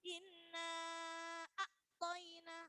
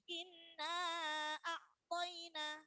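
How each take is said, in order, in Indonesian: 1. Bunyinya terputus dengan berhenti. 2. Bunyinya mengalir tanpa putus. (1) "itu nanti namanya terputus, tapi tidak boleh terputus" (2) "bacanya harus mengalir, nggak boleh terputus"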